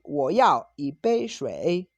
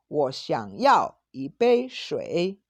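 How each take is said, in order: First: Slow, firm stress on yao in "Wo yao yi bei shui". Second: More polite. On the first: Teacher modelling the direct request, yao stressed firmly. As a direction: say "yao" strong and direct, slowly. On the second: Teacher modelling the polite version, gentle and slow. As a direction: ask gently, as a courteous request. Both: Shown as a demonstration. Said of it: "el tono es menos fuerte que yao".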